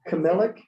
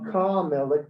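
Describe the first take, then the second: First: The first vowel is a short schwa. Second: The first vowel is a longer a. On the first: It means like a king. "than a schwa" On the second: It means like the king. "a longer a sound"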